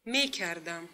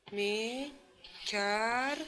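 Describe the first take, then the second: First: Said in the usual way. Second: Syllable by syllable. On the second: Shown as a demonstration. Same word split into syllables.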